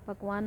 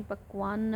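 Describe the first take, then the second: First: पकवान with a single k and one final n; colloquial form. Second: पकवान said as pakvaanna, with a doubled final n; formal Sanskrit form. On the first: Teacher citing the everyday word to be replaced, colloquial form. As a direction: say पकवान simply, ending on a single n. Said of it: "पकवान नहीं पकवान होता है". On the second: Teacher giving the correct Sanskrit word, formal doubled-n ending. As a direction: hold the closing n of पकवान and release it into a short a. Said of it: "नहीं पकवान होता है". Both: Shown as a demonstration.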